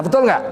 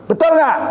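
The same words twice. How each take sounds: First: Said in the usual way. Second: Betul enggak? thrown out much higher; a loud challenge to the crowd; emphatic question. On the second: Shown as a demonstration. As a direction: press the audience for an answer.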